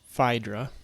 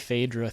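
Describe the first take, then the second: First: The first vowel sounds like 'eye'. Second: The first vowel is not like 'eye'. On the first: "with a Latin pronunciation, it would be Phaedra" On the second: "I say Phaedra throughout most of this video"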